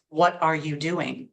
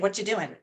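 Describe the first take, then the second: First: Every word, including 'are', is said. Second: The word 'are' is dropped entirely. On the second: "I'm going to say"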